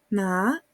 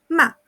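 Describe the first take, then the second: First: The pitch rises from low to high. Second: The pitch falls sharply and briefly. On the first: It means hemp. "el segundo ejemplo" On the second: It means to scold. "Cuarto ejemplo"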